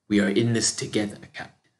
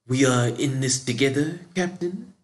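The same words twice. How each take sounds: First: It ends with a falling, statement tune. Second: It ends with a rising, questioning tune.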